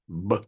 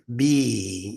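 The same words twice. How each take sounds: First: The B is said bare with no vowel. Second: The B is followed by an ee vowel. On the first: "if you divorce it from that vowel ... the B would then sound like B. I hope you can hear that" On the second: "the letter B has a vowel. You can hear it"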